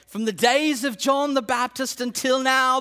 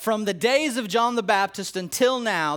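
First: It is spoken in a put-on British accent. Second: It is spoken in the speaker's natural accent.

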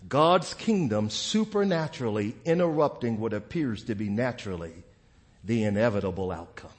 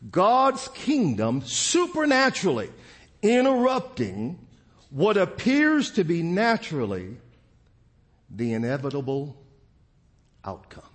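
First: It is said at normal speed. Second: It is said very slowly.

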